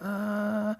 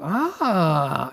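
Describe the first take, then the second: First: It sounds hesitant, with some doubt. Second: It sounds like a big realization.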